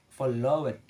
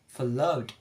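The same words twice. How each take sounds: First: The ending is said as an extra syllable. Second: The ending adds no extra syllable. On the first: The speaker calls it wrong. "in writing we can read as followed" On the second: The speaker calls it right. "in the sound of pronunciation we can read as followed"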